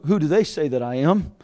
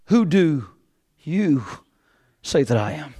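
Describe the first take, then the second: First: Light lean on "they", run through in one quiet phrase; stress on THEY. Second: "you" set apart by pauses on both sides; slow, low question with "you" standing alone; stress on YOU. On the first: Preacher sets aside others' opinions, stress on "they". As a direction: say "they" as the question set aside, without pauses. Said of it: "Not the question is on who". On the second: Preacher puts the question to listeners, isolated stress on "you". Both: Shown as a demonstration.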